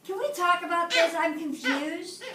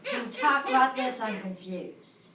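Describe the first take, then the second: First: Higher, friendly and open; polite, open question. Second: Grudging, sullen question; rude tone. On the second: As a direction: mutter the confusion, annoyed. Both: Shown as a demonstration. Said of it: "The first one".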